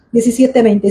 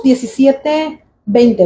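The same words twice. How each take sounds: First: Said in the usual way. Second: Slow, deliberate verse reference; slow citation. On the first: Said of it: "¿verdad?". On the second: Shown as a demonstration. Preacher citing the verse slowly for the congregation. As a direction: spell out the chapter and verse slowly. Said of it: "¿Dónde lo leímos?".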